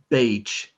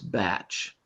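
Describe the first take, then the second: First: The vowel is long, like in 'day'. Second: The vowel is short, like in 'cat'. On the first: The speaker calls it wrong. "this is not beige" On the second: The speaker calls it right. "All of these words have short vowels"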